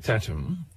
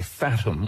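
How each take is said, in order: First: The name begins with a plain t sound. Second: The name begins with an English th sound. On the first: The speaker calls it right. "I prefer Tatum" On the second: The speaker calls it wrong. "he's pronouncing it in English, you might have a tendency to say Fatum"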